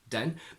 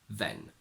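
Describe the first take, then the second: First: The word begins with a d sound. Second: The word begins with a th sound. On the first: "Sometimes Cockney pronounces it with the d instead" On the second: "usually they tend to keep it like a normal the"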